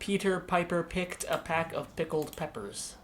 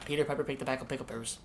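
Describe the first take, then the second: First: It is said slowly with exaggerated mouth movements. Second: It is said quickly with ordinary mouth movements. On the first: "doing them very slowly, and really exaggerate the the mouth and lip movements" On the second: "the trick of tongue twisters is doing them quickly"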